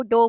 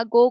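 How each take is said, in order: First: डो with D replacing the G of go; child's fronting error. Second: Said in the usual way. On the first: Retold or imitated. Lecturer shows how a child fronts go, डो with D for G. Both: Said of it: "गो को डो बोल".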